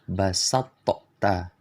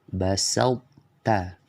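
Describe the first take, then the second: First: The t is released with an echoing bounce. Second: The emphatic quality stays partly on the t. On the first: The speaker calls it wrong. "mengkolkolahkan huruf to. Cara baca yang salah" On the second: The speaker calls it right. "yang benar bacanya"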